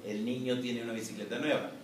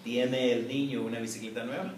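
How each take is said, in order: First: Falling tune ending on nueva; plain declarative reading; statement tune. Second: Rising tune ending on nueva; questioning read with a final rise. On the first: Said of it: "en la declaración". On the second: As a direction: lift "nueva?" upward as a yes-no question. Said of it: "En la pregunta". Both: Shown as a demonstration.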